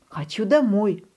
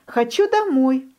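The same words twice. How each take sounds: First: Said in the usual way. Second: High, whiny хочу домой with домой pushed up; whining duckling. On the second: A narrator's reading. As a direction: wail "хочу домой" high like a homesick chick. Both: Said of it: "ноет утёнок".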